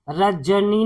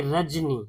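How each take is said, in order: First: रजनी said as ra-ja-nee, with an added "a" after ज; three syllables in रजनी, ज fully voiced with its vowel; full vowel after ज. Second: रजनी said as raj-nee, no vowel after ज; two syllables in रजनी, ज closing the first; reduced ज sound. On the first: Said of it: "नहीं पढ़ते". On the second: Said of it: "ज का sound जो है कम आता है". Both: Shown as a demonstration.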